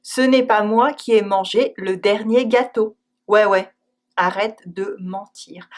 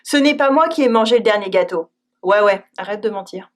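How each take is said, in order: First: Dry disbelief; eye-roll ouais; ironic ouais. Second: Fast, sarcastic "Ouais, ouais"; mocking disbelief; ironic ouais. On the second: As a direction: brush off the lie with a quick "Ouais, ouais". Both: Shown as a demonstration. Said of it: "even sometimes a plain no".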